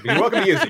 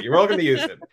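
First: Said in the usual way. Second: Chuckling through the words; laughing. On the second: Real, not acted. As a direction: laugh it out while offering.

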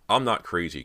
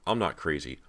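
First: Loud, emphatic denial; insistent. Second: Milder, pleading denial; insistent. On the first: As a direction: insist on it forcefully. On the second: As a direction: insist with less force, wanting belief. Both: A narrator's reading. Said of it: "Cody insisted".

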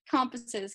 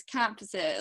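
First: "compasses" with a rounded short o; Canadian O sound. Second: "compasses" with an open ah for the o; American O sound. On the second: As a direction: say "compasses" the US way, toward CAHM-passes. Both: Shown as a demonstration. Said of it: "the O's in the U S are".

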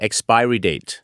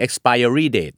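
First: "expiry date" with expiry as ex-PIE-ree; correct expiry pronunciation. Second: "expiry date" with expiry as ex-PIE-er-ree; wrong expiry pronunciation. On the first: Host explaining where the sound comes from, expiry said as ex-PIE-ree. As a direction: say "expiry" smoothly, no extra -er before the -ry. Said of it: "เราจะไม่ออกเสียง expiry date ถูกต้องไหม?". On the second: Host showing what not to say, expiry said as ex-PIE-er-ree. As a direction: put an extra -er syllable inside "expiry". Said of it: "เราจะไม่ออกเสียง". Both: Shown as a demonstration.

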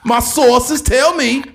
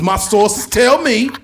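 First: Slower, higher teasing build-up. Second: Slow pundit build-up. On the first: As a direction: stretch it louder the second time. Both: Retold or imitated. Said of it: "Stephen A. Smith be like".

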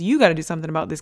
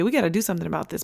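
First: "You" punched, the rest quicker and lighter; stress on YOU. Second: Said in the usual way. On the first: Retold or imitated. Husband really handing the job to his wife, stress on "You". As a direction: lean hard on "You" to shift the job. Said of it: "what he really meant was". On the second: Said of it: "But what he really meant was".

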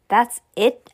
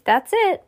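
First: Let-down question, stress on the first word; mildly incredulous asking; disbelieving question. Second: High-pitched call to a crowd; mild storybook yell, brisk and final; yelled announcement. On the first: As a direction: ask it as if there must be more. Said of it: "asked Judy". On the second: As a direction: call out that it's over, pitched up. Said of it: "yelled the pet store lady". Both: A narrator's reading.

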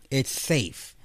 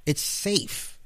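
First: Said in the usual way. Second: Higher breathy whisper on "It's safe"; soft mock whisper. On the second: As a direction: hush "It's safe" like a secret. Repeats phrase in whisper.

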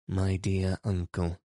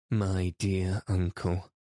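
First: A touch of kindness, "My dear uncle" said gently; mild kind plea; kindly. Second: "My dear uncle" slow, drawn out and lively; mildly animated appeal; with animation. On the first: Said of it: "she asked kindly". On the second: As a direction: press the point with spirit. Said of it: "the old lady said with animation". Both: Acted.

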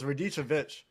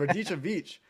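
First: "Radicevic" as ree-DEE-cha-vitch; mistaken pronunciation. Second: "Radicevic" as ra-DEE-cha-veech; corrected pronunciation. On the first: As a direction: say "Radicevic" with a short -vitch ending. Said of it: "I thought it was Radicevic". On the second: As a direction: say "Radicevic" with a long -veech ending. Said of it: "but it's Radicevic". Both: Shown as a demonstration.

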